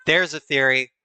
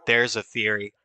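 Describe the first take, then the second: First: There's punched louder; emphatic There's a theory. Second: Said in the usual way. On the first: Shown as a demonstration. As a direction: hit There's hard.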